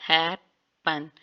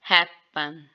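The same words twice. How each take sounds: First: हैपन stretched very slowly; slow demo. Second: हैपन said with the N shifting toward M; हैपन ending in M; assimilated form. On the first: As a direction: draw out हैपन. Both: Shown as a demonstration. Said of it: "after simulation it's".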